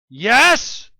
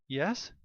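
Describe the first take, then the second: First: The word is said in a sharp, harsh tone. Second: The word is said in a calm, friendly tone. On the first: The listener is an unwelcome interruption. "you'd probably jump out of your shoes" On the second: The listener is welcome to speak. "just like that"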